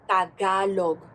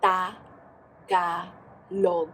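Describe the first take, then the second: First: The syllables run together without pauses. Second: The syllables are separated by pauses.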